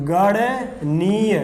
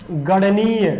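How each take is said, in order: First: "गणनीय" stretched out as गण, then नीय; slow syllable split. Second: Said in the usual way. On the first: Shown as a demonstration. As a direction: say "गणनीय" very slowly in two separate parts. Teacher repeats term broken into parts.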